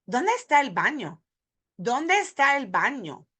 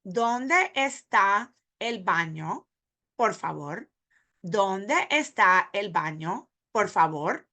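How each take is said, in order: First: "¿Dónde está el baño?" linked in a single flowing phrase; one breath group. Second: "¿Dónde está el baño, por favor?" slow, each word apart. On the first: Teacher shows the linked breath-group version for learners. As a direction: run the words together in one breath. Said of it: "when we put it in a breath group". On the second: Teacher says the question word by word for beginners. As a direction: space every word out slowly. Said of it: "word by word". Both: Shown as a demonstration.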